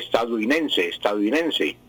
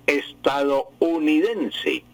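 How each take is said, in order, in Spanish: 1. La O después de 'estad' se omite. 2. La O después de 'estad' se pronuncia claramente. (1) "se come la O" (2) "la palabra bien pronunciada y correctamente"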